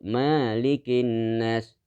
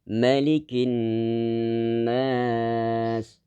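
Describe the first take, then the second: First: The first syllable ma is drawn out. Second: The first syllable ma is short. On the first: The speaker calls it wrong. "dibaca panjang ma-nya" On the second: The speaker calls it right. "Harus pendek ma-nya kemudian dibaca dengung"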